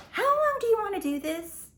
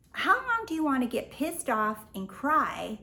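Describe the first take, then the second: First: High, loud and fed up; exasperated shout. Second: Said in the usual way. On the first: Real, not acted. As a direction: hit it high and hard, exasperated. Exasperated rhetorical challenge.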